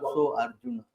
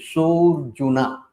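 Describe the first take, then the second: First: The two words are said separately, keeping the A. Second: The words merge into one, dropping the A. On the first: The speaker calls it wrong. "Not so Arjuna. Not like that" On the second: The speaker calls it right. "So when you read this word, it's Sojuna"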